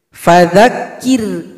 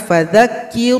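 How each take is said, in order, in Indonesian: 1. R-nya tipis, bibir bawah rileks. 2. R-nya tebal, bibir bawah diangkat.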